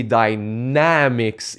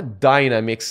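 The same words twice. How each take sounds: First: "dynamics" drawn out slowly, stress on the second syllable NAM; correct stress on dynamics. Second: "dynamics" stressed on the first syllable, DY-namics; wrong stress on dynamics. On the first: Shown as a demonstration. Creator correcting his old mistake, second-syllable stress on "dynamics". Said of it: "Il faut prononcer la deuxième syllabe du mot". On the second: Retold or imitated. Viewers querying his English word, wrong first-syllable stress on "dynamics". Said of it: "les gens me disaient".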